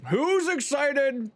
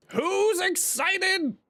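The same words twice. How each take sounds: First: Rising hype, drawn out; higher excited drawn-out ask; hyped question. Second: Much higher, slow and stretched; big hype question. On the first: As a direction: pump up the chat. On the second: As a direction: drag it out like a hype host. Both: Acted.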